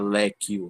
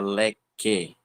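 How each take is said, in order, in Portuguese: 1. Um som de u separado segue o k. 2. O k vai direto para o e. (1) "a gente não fala leque" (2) "a gente fala leque"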